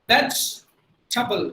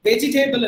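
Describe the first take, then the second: First: Vegetable very slow, vej-tuh-bul, middle E silent; teacher drills the correct form slowly; right way. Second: Vegetable with every E, ve-ge-tay-bul; teacher shows the mistake; wrong way. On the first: Correct pronunciation, very slow. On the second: Wrong spelled-out pronunciation. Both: Shown as a demonstration. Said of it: "Vegetable இல்ல".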